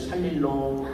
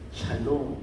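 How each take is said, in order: First: An extra syllable is inserted in the middle. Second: The word is said with its two normal syllables.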